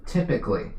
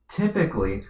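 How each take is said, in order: First: Teacher stressing typically for the class. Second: Said in the usual way. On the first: Shown as a demonstration. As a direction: lean hard on typically. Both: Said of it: "emphasis on the word typically".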